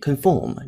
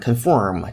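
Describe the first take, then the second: First: It is said in a British accent. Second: It is said in an American accent. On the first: "conform 这更倾向于英音" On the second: "conform 这种发音是美音"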